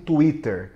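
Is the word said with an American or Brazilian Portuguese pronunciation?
Brazilian Portuguese. It is said with a Brazilian Portuguese pronunciation. This is how people commonly say it. "mais popularmente conhecido como"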